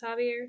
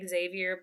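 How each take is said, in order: First: The name is said with a French pronunciation. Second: The name is said with an English pronunciation. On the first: "the French pronunciation is Javier" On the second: "it reads like Xavier"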